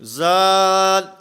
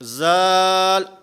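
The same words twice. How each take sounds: The two takes are said the same way.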